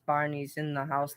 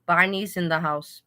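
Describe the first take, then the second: First: Quieter take. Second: Said in the usual way. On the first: Shown as a demonstration. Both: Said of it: "let me put it down".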